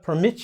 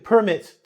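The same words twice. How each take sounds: First: The stress is on the second syllable. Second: The stress is on the first syllable. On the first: It means to allow someone to do something. "I put the emphasis on the end" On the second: It is a paper giving authority to do something. "I emphasize permit here"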